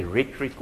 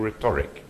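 First: "rhetoric" stressed on the first syllable, RHET-uh-rik. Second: "rhetoric" stressed on the middle syllable, rih-TOR-ik; stress on second syllable. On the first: Speaker unsure how to pronounce it, "rhetoric" stressed on RHET. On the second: Speaker offering the other pronunciation, "rhetoric" stressed on TOR. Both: Shown as a demonstration. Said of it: "I don't know whether you say".

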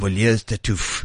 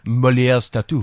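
First: "Molière's Tartuffe" slow, low, French vowels; careful French pronunciation. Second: "Molière's Tartuffe" with French vowels; French pronunciation. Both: Shown as a demonstration. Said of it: "Just say it in the French accent".

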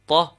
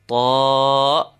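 First: Ta cut short, ah not held; short letter sound. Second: Ta with the ah pulled long; extended letter sound. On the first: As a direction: give Ta one brief back ah. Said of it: "initial sound of the letter". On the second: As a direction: sustain ta on a level back ah. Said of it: "speaking of the extension". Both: Shown as a demonstration.

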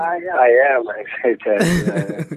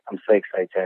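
First: Higher, louder burst of excitement; lifted, emphatic excitement; insisting he's excited. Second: Understated, calm excitement; not sounding excited. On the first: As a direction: protest that you really are excited. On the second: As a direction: say you're excited without sounding it. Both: Real, not acted. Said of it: "you don't sound as excited as I am".

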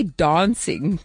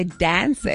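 First: Broad open "ah" in "dancing"; South African pronunciation. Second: American "dan-sing", front vowel; American pronunciation. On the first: Agency coach shows the wrong way, "dancing" as "dahn-sing". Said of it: "you can't say dancing". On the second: Agency coach shows how Americans say it, "dancing" as "dan-sing". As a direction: say "dancing" with a short flat A as in "cat". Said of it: "'cause they say dancing". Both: Shown as a demonstration.

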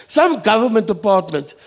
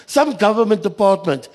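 The two takes are said the same way.

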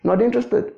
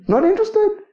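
First: Said in the usual way. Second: "Not interested" jumped much higher, sing-song and dismissive; mock dismissive. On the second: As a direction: toss off "Not interested" in a high mocking voice. Preacher voicing God's dismissal.

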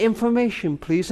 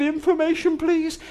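First: Said in the usual way. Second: Put-on higher, small child's voice asking the operator; a boy of nine, voice pitched up; little boy. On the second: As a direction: play a nine-year-old phoning for help. Nine-year-old boy calls the operator.

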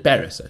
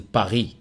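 First: "Paris" the English way, final s sounded. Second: "Paris" the French way, silent s. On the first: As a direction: say "Paris" with its s pronounced. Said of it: "I was in Paris". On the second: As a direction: say "Paris" as "pa-REE", like a cultured traveller. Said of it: "I wasn't in Paris". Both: Shown as a demonstration.

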